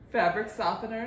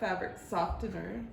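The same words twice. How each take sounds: First: The T in softener is silent. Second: The T in softener is pronounced. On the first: The speaker calls it right. "It's a silent T" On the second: The speaker calls it wrong. "not fabric softener"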